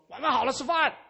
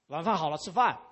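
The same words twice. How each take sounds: First: It is said in an impatient, insistent tone. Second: It is said in a calm, plain tone. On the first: The announcement has already been repeated several times. "那这个是已经是可能是第三遍在讲了" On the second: This is a simple announcement that dinner is ready. "那这是一句话"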